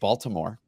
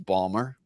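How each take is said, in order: First: The name is said the standard, outsider way. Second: The name is said the shortened local way. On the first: This is how people elsewhere say it. "I guess the rest of the world calls it Baltimore" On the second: This is how locals say it. "but it's Balmer"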